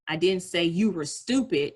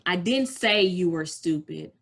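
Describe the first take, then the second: First: The stress is on the word stupid. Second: The stress is on the word say.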